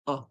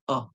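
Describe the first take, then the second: The two takes are said the same way.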